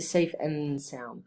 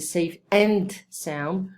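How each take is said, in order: First: The word 'and' is reduced to 'n'. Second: The word 'and' is said in full. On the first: The speaker calls it right. "We're going to say safe and sound, especially American English" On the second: The speaker calls it wrong. "we're not going to say"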